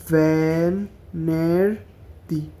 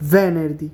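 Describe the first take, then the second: First: Very slow broken syllables; ভেনেরদি split into slow syllables. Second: Said in the usual way. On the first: Shown as a demonstration. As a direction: say ভেনেরদি as ve-ner-di. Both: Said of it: "এভাবে syllable ভাঙা ভাঙা".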